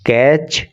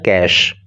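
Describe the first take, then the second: First: The word ends in a 'ch' sound. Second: The word ends in an 'sh' sound. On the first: The speaker calls it wrong. "कैच या कैचे नहीं है" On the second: The speaker calls it right. "बल्कि इसका pronunciation होता है कैश"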